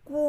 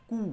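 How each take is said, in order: First: "কু" weightier, on a long u; slightly heavy long u. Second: Said in the usual way. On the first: Shown as a demonstration. Teacher repeating the letter series, "কু" in a slightly heavier voice. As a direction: give the u in "কু" more weight. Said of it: "একটু ভারী গলায় কু". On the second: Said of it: "কয়ে দীর্ঘ উকারের ক্ষেত্রে একটু ভারী গলায়".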